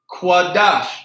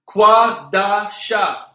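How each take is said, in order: First: The word ends on a consonant sound. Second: The word ends on an added vowel sound. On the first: The speaker calls it right. "the word for a holy separate is quadash" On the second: The speaker calls it wrong. "we're not going to say quadasha"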